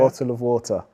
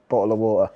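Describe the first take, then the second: First: It is said in a careful, clear way. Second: It is said in a casual, strong local accent.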